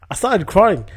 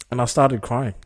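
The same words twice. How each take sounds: First: I started crying, CRYING pitched higher and louder; emphatic repeat. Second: Said in the usual way. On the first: Retold or imitated. Repeating to listeners in disbelief, higher and louder. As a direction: hit "crying" hard and high the second time.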